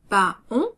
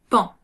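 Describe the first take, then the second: First: It is said as two syllables, pa-on. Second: It is said as one syllable, pan. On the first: The speaker calls it wrong. "Il ne se prononce pas pas on" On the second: The speaker calls it right. "mais bien pan"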